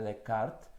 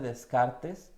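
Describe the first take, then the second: First: Descartes is pronounced with French sounds, silent letters. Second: Descartes is pronounced with Spanish sounds, letters spoken. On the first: The speaker calls it right. "la manera correcta de pronunciarlo" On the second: The speaker calls it wrong. "así lo leemos mucho en español"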